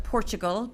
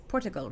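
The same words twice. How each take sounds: First: Portugal with a "ch" sound, POR-chuh-gul; others' pronunciation. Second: Portugal with a clean t, POR-tuh-gul; corrected pronunciation. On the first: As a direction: say Portugal as "Porchugal". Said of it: "some people call it". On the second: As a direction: say Portugal without any "ch" sound. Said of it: "but it's Portugal, right". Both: Shown as a demonstration.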